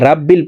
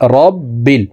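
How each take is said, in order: First: The first vowel is an open 'a' sound. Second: The first vowel is a rounded 'o' sound. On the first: The speaker calls it wrong. "এখানে র কে রা বলা যাবে না" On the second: The speaker calls it right. "র বলতে হবে"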